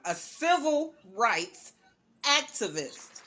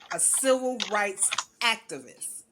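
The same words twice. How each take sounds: First: It is said loudly with strong, proud force. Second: It is said at ordinary volume and force. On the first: "I'm going to say it with my chest this time" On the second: "I'm going to say this again"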